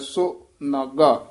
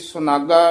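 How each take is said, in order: First: The two parts are said as separate words. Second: The two parts are run together as one word. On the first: "ਸੰਪਰਦਾ ਦੇ ਵਿੱਚ ਇਹ ਪਾਠ ਵੱਖਰਾ ਕਰਾਇਆ ਜਾਂਦਾ, ਸੋ ਨਾਗਾ ਇਉਂ ਉਚਾਰਨ ਕਰਨਾ ਹੈ" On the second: "ਇਹ ਸੁਨਾਗਾ ਇਕੱਠਾ ਪਾਦਸ਼ੇਦ ਪੋਥੀਆਂ ਤੇ ਲਿਖਿਆ ਹੋਇਆ"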